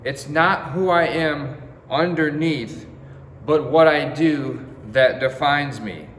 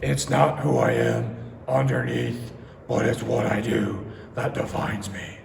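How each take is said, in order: First: It is said in his normal voice. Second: It is said in a Batman impression voice.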